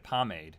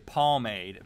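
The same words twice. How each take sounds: First: The first syllable does not sound like palm. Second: The first syllable sounds like the word palm. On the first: "you're actually supposed to say pomade" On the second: "as I like to say pomade"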